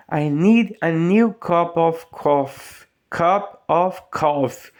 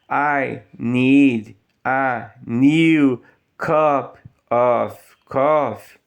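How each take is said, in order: First: Slow, "cup of coffee" run together; slow linking demo; linked words. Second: Very slow, word by word "I need a new cup"; bad example, separated words; choppy reading. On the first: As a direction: join the words smoothly. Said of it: "Olha só como que junta". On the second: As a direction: read it stiffly word by word. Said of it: "vai ficar bem ruim". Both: Shown as a demonstration.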